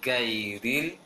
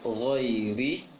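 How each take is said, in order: First: The word starts with a hard g. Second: The word starts with a throaty gh. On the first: The speaker calls it wrong. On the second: The speaker calls it right.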